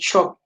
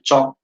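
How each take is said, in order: First: The word begins with an 'sh' sound. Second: The word begins with a 'ch' sound. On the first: This is standard English. "In English" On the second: This is how Thado Kuki speakers say it. "as we don't have this sound, we will just say"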